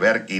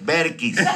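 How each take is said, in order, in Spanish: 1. El nombre se dice con sonido r. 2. El nombre se dice con sonido l. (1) "Con R" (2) "Con L"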